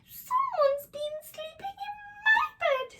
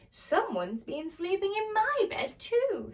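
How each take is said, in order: First: It is said in a small, squeaky voice. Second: It is said in a medium-sized voice.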